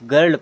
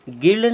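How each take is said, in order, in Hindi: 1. स्वर एक छोटी 'uh' ध्वनि है। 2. स्वर एक छोटी 'i' ध्वनि है। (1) "हमने इसको गर्ल पढ़ा" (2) "हमने इसको गिर्ल नहीं पढ़ा"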